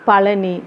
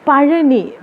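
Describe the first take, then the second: First: The middle consonant is a plain l sound. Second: The middle consonant is the retroflex zha sound.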